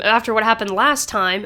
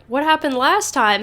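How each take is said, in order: First: Said in the usual way. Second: A hint of a clueless Ruby, slightly higher. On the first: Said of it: "narration before the quoted take". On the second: Host voicing Ruby who forgot what happened. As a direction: ask it like you truly have no idea. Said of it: "our Ruby's like".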